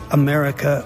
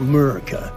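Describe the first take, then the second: First: The word is said with all its syllables. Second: The word is said without its first syllable. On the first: "pronounce it America" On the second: "or Murica"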